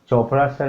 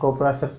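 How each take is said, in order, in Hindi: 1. नाम ch ध्वनि से शुरू होता है। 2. नाम k ध्वनि से शुरू होता है। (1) "संयोग से उनका नाम था चोपड़ा सर" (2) "सी एच का उच्चारण क होता है"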